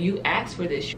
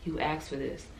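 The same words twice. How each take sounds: First: Said in the usual way. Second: Much softer, hushed voice of God; subtle whisper. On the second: Retold or imitated. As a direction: let it drop to a soft hush. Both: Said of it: "subtle whisper".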